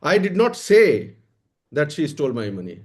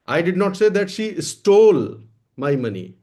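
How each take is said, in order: First: The word "say" carries the main stress. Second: The word "stole" carries the main stress. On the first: It was stolen, but I never said so. "चुराया तो है पर मैंने कहा नहीं है।" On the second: She took or borrowed it, not stole it. "मैंने ये नहीं कहा कि उसने चुराया है, ले लिया है, मांग लिया है, चुराया नहीं है।"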